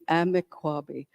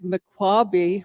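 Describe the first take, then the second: First: The name begins with a vowel sound. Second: The name begins with an M sound. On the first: This is the original form of the name. The speaker calls it right. "it's really Amikwabe" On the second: This is the colonial form of the name. The speaker calls it wrong. "they just mispronounced it"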